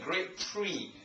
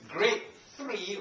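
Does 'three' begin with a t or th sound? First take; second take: t; th. First: The word three starts with a plain t. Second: The word three starts with a clear th. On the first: The speaker calls it wrong. "rather than grade three" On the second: The speaker calls it right. "It's grade three"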